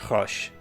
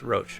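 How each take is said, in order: First: The name is said the French way. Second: The name is said the English way. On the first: The speaker calls it right. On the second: The speaker calls it wrong.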